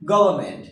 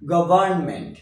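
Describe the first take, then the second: First: No 'n' sound is heard before 'ment'. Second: An 'n' sound is heard before 'ment'. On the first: The speaker calls it right. "Silent থাকবে" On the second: The speaker calls it wrong. "Not গভর্নমেন্ট"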